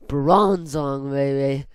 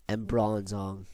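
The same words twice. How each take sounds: First: Louder, excited shout-out of Bronzong; hyped-up cheer. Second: Said in the usual way. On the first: Real, not acted. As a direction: hype up the name Bronzong. Hyped repeat of the pick.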